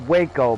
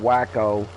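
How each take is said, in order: First: The first syllable sounds like 'way'. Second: The first syllable sounds like 'whack'. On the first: "it's called Waco" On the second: "but I call it Wacko"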